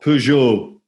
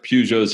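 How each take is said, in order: First: The name has a slightly French pronunciation. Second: The name has a plain English pronunciation.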